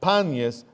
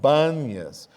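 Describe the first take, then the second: First: The name begins with a hard P sound. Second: The name begins with a soft B sound.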